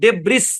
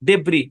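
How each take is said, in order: First: The word ends with an audible s sound. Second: The word ends without any s sound. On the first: The speaker calls it wrong. "এসটা silent, ডেব্রিস না" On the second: The speaker calls it right.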